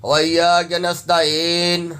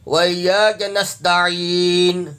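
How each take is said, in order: First: Slow نستعین ending "ta-ayn"; wrong nasta'een. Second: Slow نستعین, throat ain plus long "ee"; correct nasta'een. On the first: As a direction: misread the end of نستعین with "ay" for "ee". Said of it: "غلط ہے". (نستعین کو "نستاعین" یائے مجہول سے) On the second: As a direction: squeeze the ain of نستعین, then hold "ee". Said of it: "عین یا زیر عی". (نستعین، عین یا زیر عی) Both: Shown as a demonstration.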